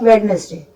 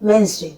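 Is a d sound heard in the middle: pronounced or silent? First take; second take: pronounced; silent. First: The d sound is pronounced in the middle. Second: The d sound is left out entirely. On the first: "जबकि होता है वेडनेसडे" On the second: "इसका pronunciation होता है वेंसडे"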